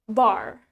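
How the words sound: It is said in an American accent. "In American"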